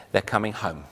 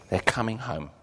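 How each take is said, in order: First: Said in the usual way. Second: Softer repeat, stress on coming; soft echo. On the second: Shown as a demonstration. Preacher repeating the promise to congregation, softer echo. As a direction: echo it back quietly, leaning on coming.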